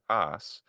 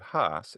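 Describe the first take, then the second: First: The word begins with no H sound. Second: The word begins with an audible H sound.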